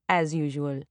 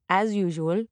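First: Dropped low and dry; deadpan self-mocking echo; wry low aside. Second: Matter-of-fact aside; said simply in passing; plain. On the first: Wry repeat of as usual. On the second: Narrator repeating lateness excuse. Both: A narrator's reading.

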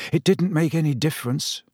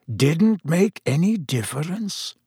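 First: Mildly bitter, higher-pitched protest; Harry, bitter. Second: Slow, higher echo with a questioning rise; Dumbledore, quietly questioning. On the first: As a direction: answer with a touch of bitterness. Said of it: "said Harry bitterly". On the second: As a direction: repeat it slowly as a measured question. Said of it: "said Dumbledore quietly". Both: A narrator's reading.

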